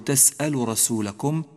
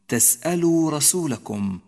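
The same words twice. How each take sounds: First: The long u vowel before rasulakum is dropped. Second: The long u vowel before rasulakum is clearly pronounced. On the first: The speaker calls it wrong. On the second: The speaker calls it right.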